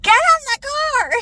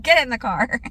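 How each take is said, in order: First: High, loud yelled order; screaming. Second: Said in the usual way. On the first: Retold or imitated. Mom yelling at son to get in car, screaming. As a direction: scream it in frustration. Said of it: "Why are you screaming at me?". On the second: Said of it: "said over and over again".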